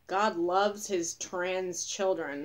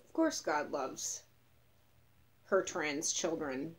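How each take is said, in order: First: Said in the usual way. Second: "her" set apart after a pause; slow, deliberate correction landing on "her"; stress on her. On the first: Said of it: "I saw one that was like". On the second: Retold or imitated. Marcher answering a sign, deliberately correcting it to "her". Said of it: "and I was like".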